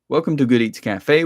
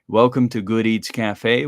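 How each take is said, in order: First: It is read at a quicker, faster pace. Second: It is read at a slower, more relaxed pace. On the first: "read a bit faster" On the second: "It took me seventeen seconds to read that"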